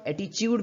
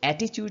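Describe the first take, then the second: First: The stress is on the second syllable. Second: The stress is on the first syllable. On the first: "second पर भी दे जाते हैं" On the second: "first syllable पर भी stress दे सकते हैं"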